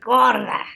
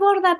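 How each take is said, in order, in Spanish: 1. Se dice con un tono despectivo y humillante. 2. Se dice con un tono cálido y cariñoso.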